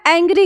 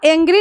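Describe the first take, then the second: First: The first vowel is an open 'a' as in cat. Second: The first vowel is a plain 'e' sound. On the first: The speaker calls it right. "एंग्री है" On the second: The speaker calls it wrong. "यह एंग्री नहीं है"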